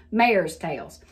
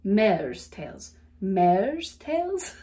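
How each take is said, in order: First: Southern "Mare's", stretched to "may-erz"; "Mare's tails" with a Southern glide; Southern accent. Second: "Mare's" careful, non-Southern, single plain vowel; non-Southern take on "Mare's tails"; non-Southern accent. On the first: Back to her own way after trying non-southerner, Southern accent. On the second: Trying to say it like a non-southerner, non-Southern accent. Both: Shown as a demonstration. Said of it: "how do you say that like a non-southerner".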